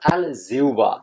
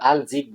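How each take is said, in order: First: A 'u' glide comes before the 'ba'. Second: The word ends in a short 'jib' sound. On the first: The speaker calls it right. "সঠিক উচ্চারণ হলো" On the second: The speaker calls it wrong. "এগুলো সঠিক উচ্চারণ না"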